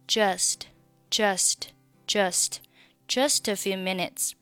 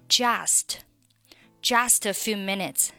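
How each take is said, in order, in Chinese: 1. 'just'里的元音是模糊、弱化的音。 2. 'just'里的元音是完整的'ah'音。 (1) "它其实是一个模糊的啊音" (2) "觉得这个音呢听上去有点像汉语当中的啊，于是把它读成了"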